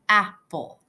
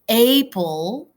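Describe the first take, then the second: First: The first vowel is short, like in 'cat'. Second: The first vowel is long, like in 'late'. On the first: The speaker calls it right. "you would say apple" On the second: The speaker calls it wrong. "You wouldn't say apple"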